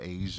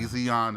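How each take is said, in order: First: The name is said like the word Asian. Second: The name is said as Azion, not like Asian. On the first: The speaker calls it wrong. "I was definitely not pronouncing it correctly" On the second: The speaker calls it right. "Azion is what it is"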